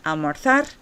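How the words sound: The z is said like English th. "I use the thetheo, right, in this Castilian Spanish accent"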